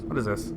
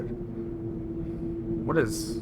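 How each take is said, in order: First: Said in the usual way. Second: High, stretched-out puzzled "What is"; drawn-out puzzled what. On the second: Real, not acted. Streamer puzzling at the screen, high drawn-out wonder.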